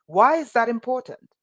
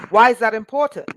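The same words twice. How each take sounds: First: Said in the usual way. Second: Loud, rising preacher's cry; passionate near-yell. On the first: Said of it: "I'm not yelling". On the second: Real, not acted. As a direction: hit the question hard with passion. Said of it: "Sorry, I'm not yelling. I just get passionate".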